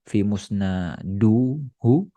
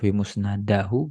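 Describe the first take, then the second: First: The case vowel after musnad is u. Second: The case vowel after musnad is a. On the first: "Bukan kita baca" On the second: "Bukan kita baca"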